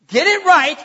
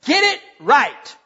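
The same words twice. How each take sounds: First: Higher, louder "Get it right"; forceful rebuke. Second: Slow, firm "Get it right"; firm rebuke. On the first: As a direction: drive the command home. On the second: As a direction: say it as a steady warning. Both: Acted. Pastor voices God's rebuke.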